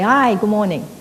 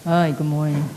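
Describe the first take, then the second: First: The greeting sounds cheerful and upbeat. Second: The greeting sounds gloomy and reluctant.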